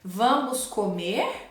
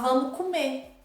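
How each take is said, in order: First: Every sound is pronounced fully and carefully. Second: Final sounds are dropped in relaxed speech. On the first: This is how it is written. "eu posso escrever" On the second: This is how it is spoken. "mas falar"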